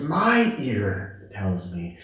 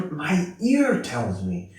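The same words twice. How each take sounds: First: Very slow, weight on my; more emphasis. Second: Slow, leaning on ear; emphatic claim. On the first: Nun stressing her own ear to the player, slow. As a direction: lean hard on "My" and draw the line out. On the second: Nun insisting to the organist, stressed ear. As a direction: stress on ear, said slowly and proudly. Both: Retold or imitated. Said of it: "she put more emphasis".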